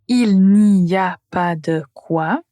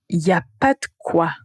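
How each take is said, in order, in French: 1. La phrase est prononcée lentement et en entier. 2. La phrase est prononcée rapidement et les mots sont liés.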